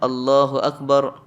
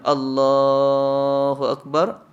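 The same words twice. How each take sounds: First: The phrase is said short and quick. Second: The phrase is drawn out long. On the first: The congregation should sit for the first tashahhud. The speaker calls it right. "sepatutnya pendek takbirnya" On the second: The congregation may think they should stand up. The speaker calls it wrong. "dia baca panjang"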